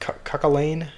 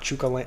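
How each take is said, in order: First: The first consonant is a k sound. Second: The first consonant is a ch sound. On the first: The speaker calls it right. "It's pronounced Cuckalane" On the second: The speaker calls it wrong. "it's not Chukalane"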